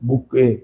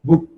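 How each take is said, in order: First: An extra vowel sound is added at the end. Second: The word ends cleanly on the final consonant.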